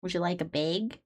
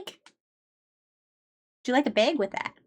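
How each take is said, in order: First: Softer, lower Midwestern accent. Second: Slow, sing-song Midwestern accent. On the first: Asking a customer about a bag, quiet Midwestern accent. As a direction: say it quietly like a Minnesota cashier. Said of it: "God, it's awful". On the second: Offering a customer a bag, slow Midwestern accent. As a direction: drawl it like a Minnesota cashier. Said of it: "The Midwest is so painful". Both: Shown as a demonstration.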